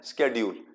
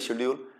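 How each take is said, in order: First: The word begins with an 'sk' sound. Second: The word begins with an 'sh' sound. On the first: This is the way many other people say it. "कई लोग उसको किस तरीके से pronounce" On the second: This is the way we say it. "हम बोलते हैं"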